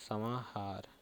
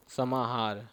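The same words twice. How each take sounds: First: समाहार repeated much softer, almost to oneself. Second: Said in the usual way. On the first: Shown as a demonstration. Teacher repeating the term softly for dictation, quiet. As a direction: echo समाहार quietly under the breath. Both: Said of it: "इसको बोलते हैं ऐसे".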